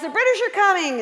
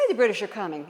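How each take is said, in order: First: Loud, high rallying yell; yelled call. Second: Said in the usual way. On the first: Retold or imitated. Paul Revere riding out shouting to everyone, loud and high. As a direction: shout the alarm from horseback. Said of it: "and he yells". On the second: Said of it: "Why didn't he say".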